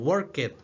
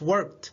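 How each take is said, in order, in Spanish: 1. La terminación no suena como T. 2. La terminación suena como T corta. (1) "Algunos lo han pronunciado como worked, ¿verdad? Pero no" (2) "Como si tuviera una pequeña T"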